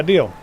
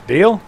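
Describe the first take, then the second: First: "deal" settled with a falling tune; accepting deal. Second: "Deal?" high with a rising question tune. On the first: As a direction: confirm "deal" firmly, voice dropping. Bartender accepts the bet. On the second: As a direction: ask "Deal?" seeking confirmation, voice lifting. Patron asks to confirm bet. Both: Acted.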